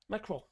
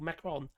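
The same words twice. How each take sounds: First: The final N is not pronounced. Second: The final N is clearly pronounced. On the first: The speaker calls it right. "Don't pronounce the N" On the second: The speaker calls it wrong. "He's not a Macron"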